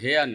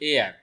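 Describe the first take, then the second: First: The word begins with an h sound. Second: The word begins with a vowel, no h. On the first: The speaker calls it wrong. "এই শব্দের উচ্চারণ হেয়ার না" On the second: The speaker calls it right. "এই শব্দের উচ্চারণ হলো এয়ার"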